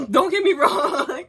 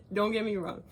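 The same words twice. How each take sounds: First: Slow, louder, rising line through laughter; laughing. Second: Said in the usual way. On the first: Real, not acted. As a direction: laugh as you backpedal. Laughing reassurance.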